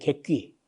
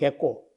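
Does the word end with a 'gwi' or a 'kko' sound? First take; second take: gwi; kko. First: The word ends in a 'gwi' syllable. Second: The word ends in a 'kko' syllable. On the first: This is the standard form of the word. "여기 객귀가 이제 그 정상적인 문자인데, 발음인데" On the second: This is the regional dialect form of the word. "요 경남 산청에는 객꼬는 객꼬"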